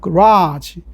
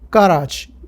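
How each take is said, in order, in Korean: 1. 강세는 미국 영어 방식이에요. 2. 강세는 영국 영어 방식이에요.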